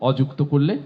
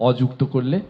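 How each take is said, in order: The two takes are said the same way.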